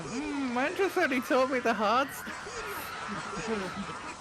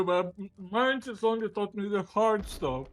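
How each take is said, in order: First: High, slow mock mouth-full mumble. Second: Talking with a mouthful of food; words mumbled round a mouthful; mouth full. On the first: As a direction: mimic talking through a mouthful. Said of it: "with your mouth full, going". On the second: Real, not acted. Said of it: "with your mouth full".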